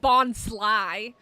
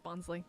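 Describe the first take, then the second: First: The last syllable ends in an 'eye' sound. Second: The last syllable ends in an 'ee' sound. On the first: The speaker calls it wrong. "It's not Bon Sly" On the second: The speaker calls it right. "Nah, it's Bonsley"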